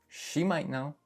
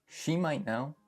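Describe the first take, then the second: The two takes are said the same way.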